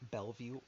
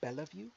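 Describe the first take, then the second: First: The second E is silent. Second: The second E is pronounced. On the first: The speaker calls it right. "you don't pronounce that second E in it" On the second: The speaker calls it wrong. "Rashad called Bellevue"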